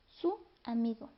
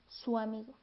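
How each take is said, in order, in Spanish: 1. La u y la a se pronuncian como sílabas separadas. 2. La u se desliza hacia la a en una sola sílaba. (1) "Nosotros no decimos su amigo" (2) "en realidad suena como su amigo"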